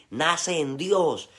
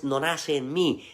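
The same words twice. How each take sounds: First: Very slow, with "Dios" stressed and held, falling at the end; "Dios" held long and stressed, slowly and a bit louder. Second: Slow, with "mí" drawn out and stressed; "mí" held long and stressed, slowly, to reject it. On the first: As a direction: land hard on "Dios" as the answer. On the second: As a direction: lean on "mí" to set it against "Dios". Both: Shown as a demonstration.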